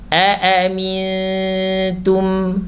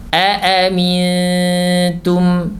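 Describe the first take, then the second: The two takes are said the same way.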